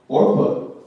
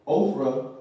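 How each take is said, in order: First: The name is said with the 'r' before the 'p'. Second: The name is said with a 'ph' before the 'r'. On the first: The speaker calls it right. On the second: The speaker calls it wrong. "I pronounced his name wrong"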